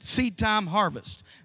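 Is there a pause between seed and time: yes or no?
no. Seed and time run together without pause.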